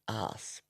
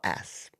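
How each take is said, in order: First: It is said in a non-American accent. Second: It is said in an American accent.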